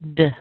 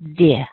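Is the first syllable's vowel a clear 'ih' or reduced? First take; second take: reduced; clear. First: The vowel is squeezed into a tiny weak sound. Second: The vowel is a clear short 'ih' sound. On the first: "you're going to scrunch it down even more" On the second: "You can make the I sound like I, like you would when you say kiss or fish"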